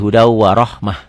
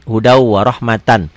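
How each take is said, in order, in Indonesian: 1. Kata terakhir berakhiran pendek dengan -mah. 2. Kata terakhir berakhiran penuh -matan. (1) "Kalau dihentikan jadi hudau warahmah" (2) "kalau dibaca apa adanya"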